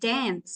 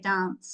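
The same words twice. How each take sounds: First: The word has an Australian-style vowel. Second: The word has a British-style vowel. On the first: "You guys say dance" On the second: "We say dance, like the British English"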